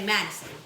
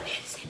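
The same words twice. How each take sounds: First: The name is said in a deep voice. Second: The name is whispered softly. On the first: "like a deeper tone" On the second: "she was like whispering, like"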